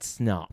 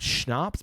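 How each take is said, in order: First: The word begins with a plain 's' sound. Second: The word begins with an 'sh' sound. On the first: This is the Nordic way of saying it. The speaker calls it right. "but Snaps" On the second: This is the German way of saying it. The speaker calls it wrong. "Like not Schnapps"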